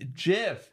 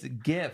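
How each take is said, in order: First: The G is soft, like a J. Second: The G is hard, as in go. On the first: The speaker calls it wrong. "It's not GIF" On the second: The speaker calls it right. "It's GIF. Because the term is graphical. That's what the G stands for"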